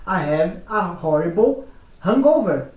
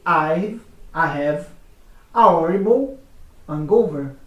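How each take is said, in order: First: American accent, hangover with a clear H; American English, H sounded. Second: British accent, H in hangover dropped; British English, silent H. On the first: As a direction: say hangover with a full breathy H. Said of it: "no americano diz". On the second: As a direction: say hangover as "angover", no H. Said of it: "O britânico vai dizer". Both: Shown as a demonstration.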